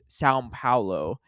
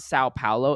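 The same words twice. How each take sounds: First: The first word ends with a nasal M-like sound. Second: The first word ends without a nasal M-like sound. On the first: The speaker calls it right. "like almost like a little M at the end of the Sao" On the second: The speaker calls it wrong. "it's not Sao Paulo"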